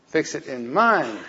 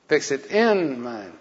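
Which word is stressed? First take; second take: mind; in. First: The word 'mind' is said loudest. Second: The word 'in' is said loudest.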